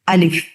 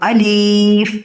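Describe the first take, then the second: First: The second vowel is kept short. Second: The second vowel is drawn out long. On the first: The speaker calls it right. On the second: The speaker calls it wrong.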